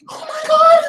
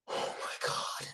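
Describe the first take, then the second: First: Very high, loud, tearful squeal; shrieking, blissed-out amazement; overwhelmed squeal. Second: Whispered, stunned by the taste; voiceless gasp of wonder; awestruck whisper. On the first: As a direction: cry it out in ecstasy. Sagittarius overwhelmed by cookie. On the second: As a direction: breathe it out in hushed amazement. Sagittarius tastes the cookie. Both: Acted.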